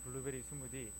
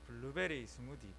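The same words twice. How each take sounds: First: It is said in a plain Seoul accent. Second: It is said in a Gyeongsang accent. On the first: "서울 사람들은 이 블루베리 스무디를 발음할 때 그냥 블루베리 스무디 이렇게 말하는데" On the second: "경상도 사람들은 그렇게 발음을 못한다 그래요"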